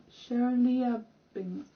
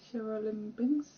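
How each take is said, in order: First: "Shereliabinsk" drawn out with lia before binsk, falling; corrected pronunciation. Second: "Sherelimbinsk" tried with a limb sound, questioning rise; unsure pronunciation. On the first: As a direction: sound out "Shereliabinsk" slowly as the answer. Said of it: "not Sher-, no". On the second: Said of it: "the weird pronunciation". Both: Real, not acted.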